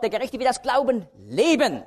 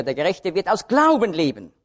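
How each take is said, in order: First: "leben" lifted high and held; stress on leben. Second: Weight on "Glauben" with a falling close; stress on Glauben. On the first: Preacher reading Hebräer, stressing "leben" for life with God. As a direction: land the weight on the word "leben". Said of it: "Da liegt also die Betonung auf dem Leben". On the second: Preacher quoting Galater, stressing "Glauben" against works. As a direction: hit "Glauben" hardest. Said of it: "sondern nur durch Glauben". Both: Shown as a demonstration.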